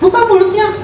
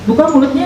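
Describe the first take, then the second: First: It is said with a raised, high pitch. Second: It is said with a normal, gentle pitch.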